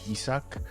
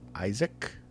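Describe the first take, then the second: First: The name is said with a Japanese-style pronunciation. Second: The name is said like the English name Isaac. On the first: "in Japanese, it's the pronunciation is probably closest to Isak" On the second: "Some of the characters might refer to the main character more closer to Isaac"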